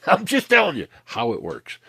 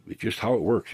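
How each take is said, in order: First: Laughing through the words. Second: Said in the usual way. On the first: Real, not acted. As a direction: chuckle out the line, voice jumping up. Laughs while repeating point.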